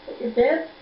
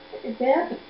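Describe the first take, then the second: No difference in how they are said.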